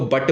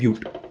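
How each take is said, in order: First: The vowel comes straight after the b. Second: A y sound comes between b and vowel. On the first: The speaker calls it wrong. "इसको बट मत पढ़ना" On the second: The speaker calls it right. "इसको कहते हैं ब्यूट"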